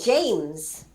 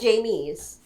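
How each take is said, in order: First: The name is said as one syllable. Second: The name has an extra middle syllable. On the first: The speaker calls it right. "saying James" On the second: The speaker calls it wrong. "I'm not saying Jamies"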